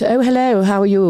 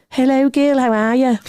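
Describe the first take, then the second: First: High, put-on polite greeting; misquoted Georgie. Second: Georgie's catchphrase. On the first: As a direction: imitate someone wrongly quoting a friend's hello. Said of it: "George doesn't speak like that". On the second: Retold or imitated. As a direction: imitate a friend's pet greeting in a high voice. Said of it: "Georgie might have a little saying like".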